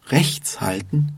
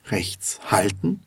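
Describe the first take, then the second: First: Emphasis on "rechts"; stress on rechts. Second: Emphasis on "halten"; stress on halten. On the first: Teacher contrasts two meanings, stressing "rechts". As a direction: put the weight on "rechts". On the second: Teacher contrasts two meanings, stressing "halten". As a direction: put the weight on "halten". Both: Shown as a demonstration. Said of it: "Durch den Unterschied in der Betonung".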